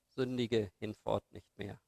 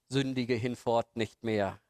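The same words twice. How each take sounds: First: It is said in a warm, loving tone. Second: It is said in a stern, admonishing tone. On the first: It is a caring encouragement after forgiveness. "liebevoll zu sie angeschaut hat" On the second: It is a moral warning and reproach. "den moralischen Zeigefinger"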